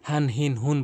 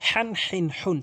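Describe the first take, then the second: First: The h sound at the start is soft and light. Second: The h sound at the start is pressed and forceful. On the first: The speaker calls it wrong. "মারাত্মক লেভেলের ভুল করে" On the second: The speaker calls it right. "চাপ দিয়ে বলতে হবে"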